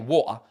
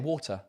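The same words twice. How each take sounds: First: The T in the middle is dropped. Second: The T in the middle is clearly pronounced. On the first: "you can say water" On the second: "you can be proper and say water"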